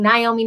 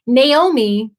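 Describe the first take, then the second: First: Naomi said "nigh-OH-mee"; mispronunciation. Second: Naomi said "nay-OH-mee"; corrected pronunciation. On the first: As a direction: open Naomi with a "nigh" sound. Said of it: "I was saying Naomi". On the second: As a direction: open Naomi with a "nay" sound. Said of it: "until I finally got it right". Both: Shown as a demonstration.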